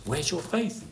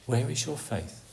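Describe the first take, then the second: First: Soft, rising on faith; questioning. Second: Hushed, leaning on where; soft repeat. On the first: Preacher asking the congregation again, rising on faith. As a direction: lift faith into a gentle question. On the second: Preacher repeating the Lord's question quietly, inward. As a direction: let the question drop softly onto where. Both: Shown as a demonstration.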